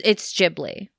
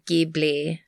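First: It begins with a soft J sound. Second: It begins with a hard G sound. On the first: The speaker calls it right. "But no, it's Ghibli. Trust me" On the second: The speaker calls it wrong. "if it was supposed to be pronounced that way, it would have been G-I-B-L-I"

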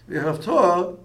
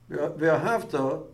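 First: The stress is on the last syllable. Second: The stress is on the second-to-last syllable. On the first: An instruction about what should be done. The speaker calls it right. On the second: A description of something already done. The speaker calls it wrong.

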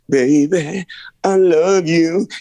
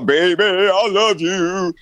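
First: The phrase is said warmly, with real feeling. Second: The phrase is said flatly, without feeling. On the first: The singer truly means it. The speaker calls it right. "you say the phrase like you would be speaking to somebody" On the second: The singer is just saying the words. The speaker calls it wrong. "You don't go, ... You don't do that"

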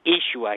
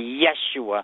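First: The name begins with an 'ee' sound. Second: The name begins with a 'y' sound. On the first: This is the original Aramaic pronunciation. The speaker calls it right. "but it's really Yeshua ... the Y is really a double E sound" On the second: This is the Hebrew pronunciation. The speaker calls it wrong. "in the Hebrew pronunciation, they say Yeshua"

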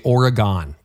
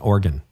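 First: Oregon is said in a Canadian way, unlike 'organ'. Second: Oregon is said so it sounds like 'organ'. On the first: This is how Canadians say it. The speaker calls it wrong. "you know how Canadians say Oregon? They say Oregon" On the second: This is how locals say it. The speaker calls it right. "it's like the musical instrument, Oregon"

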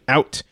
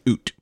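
First: The word is said in a neutral accent. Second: The word is said in a Canadian accent.

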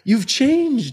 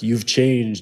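First: It is said in a celebratory, happy tone. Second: It is said in a suspicious, wary tone. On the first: The change is welcomed. "in like this celebratory tone" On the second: The change is distrusted. "in this suspicious right. tone"

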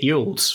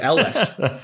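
First: The name begins with a 'y' sound. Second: The name begins with an 'el' sound. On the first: The speaker calls it wrong. "I've been pronouncing it Yules for the vast majority of my life" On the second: The speaker calls it right. "it's Elwes"

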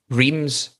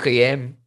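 First: The name is said with an English pronunciation. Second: The name is said with a French pronunciation. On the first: The speaker calls it wrong. "Not correct" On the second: The speaker calls it right. "It should be Reim"

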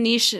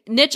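First: It is said the way Europeans usually say it. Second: It is said the way Americans usually say it. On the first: "niche might be more European" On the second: "niche is more American"

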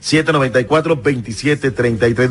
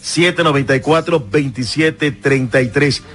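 First: The number is said very fast. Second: The number is said more slowly.

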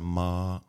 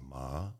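First: The pitch stays level and high. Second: The pitch rises like a question. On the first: "if you say a flat sound" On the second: "The second tone is rising"

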